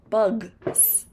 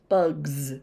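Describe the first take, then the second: First: The word ends with a voiceless s sound. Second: The word ends with a voiced z sound. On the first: The speaker calls it wrong. "If you try to say bugs with the S pronounced as a S sound, it's very difficult" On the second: The speaker calls it right. "we just kind of roll from, you know, voiced to voiced"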